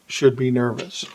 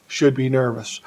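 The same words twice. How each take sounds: The two takes are said the same way.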